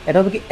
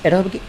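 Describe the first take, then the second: No difference in how they are said.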